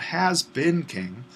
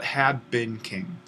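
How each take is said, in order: First: Has stressed, slowed and rising; teacher stressing has to show the wrong tense. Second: Had stressed and slow, falling; teacher stressing had as the right tense. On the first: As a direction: lean on the word has as the wrong form. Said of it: "That's not has been king". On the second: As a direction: hit the word had to correct it. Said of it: "but had been king". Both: Shown as a demonstration.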